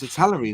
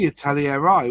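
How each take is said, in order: First: The name is said in a shortened form. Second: The name is said in a longer form. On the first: This is the current name. "It's Italeri now" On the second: This is the older name. "It used to be Italieri"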